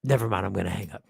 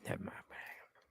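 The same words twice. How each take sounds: First: Low, quick murmur; muted, hurried retreat in a low register; caller backing out. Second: Barely audible whisper; hushed, voiceless aside; whispered retreat. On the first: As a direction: drop deep and bail out hurriedly. Acted caller backing out of call. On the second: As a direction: whisper it as if slipping off the call. Acted caller repeats it under breath. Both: Acted.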